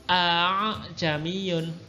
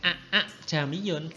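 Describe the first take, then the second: First: The second glottal stop is softened toward an h. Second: Both glottal stops are pronounced clearly and separately. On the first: The speaker calls it right. "hamzah kedua dibaca tashil" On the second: The speaker calls it wrong.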